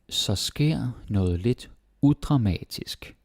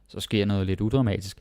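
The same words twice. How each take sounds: First: It is said slowly. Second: It is said fast.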